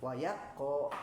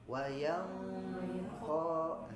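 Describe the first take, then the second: First: The n sound merges fully into the k. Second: The n sound is hidden, half nasalized. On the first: The speaker calls it wrong. "Kalau idgham dua-duanya misalnya" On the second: The speaker calls it right. "jadinya samar"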